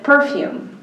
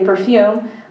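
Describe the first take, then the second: First: It has the British stress pattern. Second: It has the local stress pattern. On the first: "but the British said perfume" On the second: "Most people here say perfume"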